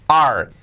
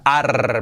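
First: "Are" with a clean English r, not rolled; careful model "Are"; correct English "are". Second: "ar" with a drawn-out sailor's rolled r; wrong, exaggerated "ar"; pirate-like "arr". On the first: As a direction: say "Are" plainly as "ahr", no sailor growl. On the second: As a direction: overdo "ar" like a sailor's "arrr". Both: Shown as a demonstration. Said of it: "Que no sea ar marinero".

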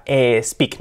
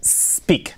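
First: "speak" mispronounced as "espeak"; wrong initial E. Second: "speak" launched from a drawn-out S, no E; starting with S. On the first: Teacher warning learners of the error, "speak" with an E in front. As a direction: put an E before the S of "speak". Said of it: "que no sea". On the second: Teacher correcting the error, "speak" begun cleanly with S. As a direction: open "speak" directly on the S. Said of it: "empecemos con una S". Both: Shown as a demonstration.

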